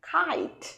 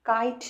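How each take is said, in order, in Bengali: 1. এটা একটু শ্বাসযুক্ত ধ্বনি দিয়ে শুরু হয়। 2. এটা সাধারণ, শ্বাসবিহীন k ধ্বনি দিয়ে শুরু হয়। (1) "খাইট, একদম এইভাবে" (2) "কাইট নয়"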